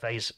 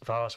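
First: The vowel sounds like the one in 'say'. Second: The vowel sounds like the one in 'car'. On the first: This is the American way of saying it. The speaker calls it wrong. "depending on your pronunciation" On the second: This is the British way of saying it. The speaker calls it right. "It's Vars. We're not in America"

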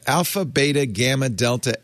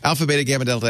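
First: The letters are recited at a normal pace. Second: The letters are recited at a fast pace.

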